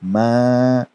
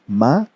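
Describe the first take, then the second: First: The vowel is stretched twice as long. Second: The vowel is short. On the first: "we are going to stretch it twice as long as harakat" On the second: "if meme had harakat, we would recite it as"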